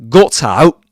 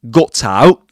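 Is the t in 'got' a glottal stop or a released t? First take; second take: glottal stop; glottal stop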